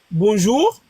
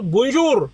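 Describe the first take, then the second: First: Said in the usual way. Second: Bonjour in another French accent; different French accent. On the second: Shown as a demonstration. Showing that an accent changes nothing, "bonjour" in a different accent. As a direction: say "bonjour" with a marked non-standard French accent. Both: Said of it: "t'as un accent bizarre".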